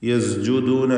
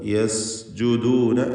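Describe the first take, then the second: First: The sound before the j is a buzzing z. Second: The sound before the j is a clear hissing s. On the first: The speaker calls it wrong. "ഈ പദം പലരും തെറ്റിക്കും. യസ്ജുദൂന എന്ന് പറയും. സീനിനെ സായാക്കി മാറ്റിയിട്ട്" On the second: The speaker calls it right. "യസ് എന്ന് വ്യക്തമാക്കി സഫീർ വ്യക്തമാക്കിക്കൊണ്ട്"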